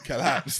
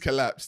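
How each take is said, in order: First: The final d sound is still dropped. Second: The final d sound is clearly pronounced. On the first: The speaker calls it wrong. "It didn't sound like it still" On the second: The speaker calls it right. "Yeah, yeah, yeah, yeah"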